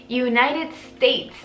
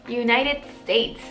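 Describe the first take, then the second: The two takes are said the same way.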